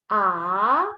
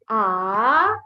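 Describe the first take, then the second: First: The pitch rises from low to high. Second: The pitch rises from low to high.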